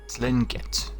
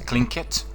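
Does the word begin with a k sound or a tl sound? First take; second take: tl sound; k sound. First: The word begins with a tl sound. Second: The word begins with a k sound. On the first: The speaker calls it wrong. "it looks like we'd pronounce it as uh" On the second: The speaker calls it right. "but actually it's Klingit"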